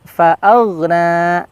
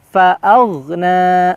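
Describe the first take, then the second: No difference in how they are said.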